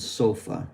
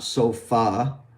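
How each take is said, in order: First: The final vowel is a short, reduced schwa. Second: The final vowel is a full, unreduced vowel. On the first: The speaker calls it right. "Like in sofa" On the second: The speaker calls it wrong. "It's not sofa"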